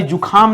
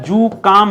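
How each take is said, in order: First: जुकाम said as "jukhaam", with a breathy aspirated kh; wrong form shown. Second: जुकाम said as "jukaam", with a plain unaspirated k; correct form shown. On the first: Teacher showing students the wrong form: जुकाम with a breathy kh. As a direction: sound out जुकाम with kh to show the common mistake. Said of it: "जुकाम नहीं होता है". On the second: Teacher giving students the right form: जुकाम with a plain k. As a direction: say जुकाम cleanly with a plain k, no breath after it. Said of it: "जुकाम होता है". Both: Shown as a demonstration.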